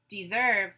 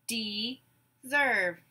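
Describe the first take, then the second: First: Said in the usual way. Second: "Deserve" in two drawn-out beats; syllable by syllable. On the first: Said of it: "You say the whole word". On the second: Shown as a demonstration. Teacher gives syllables to blend, "Deserve" broken apart. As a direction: say "Deserve" as de, pause, serve. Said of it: "I will say syllables in a word".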